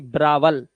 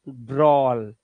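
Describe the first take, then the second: First: It is said as two syllables, bra-wal. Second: It is said as one syllable with an aw vowel. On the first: The speaker calls it wrong. "ना कि ब्रावल" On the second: The speaker calls it right. "ए डब्ल्यू का उच्चारण ... ऑ से"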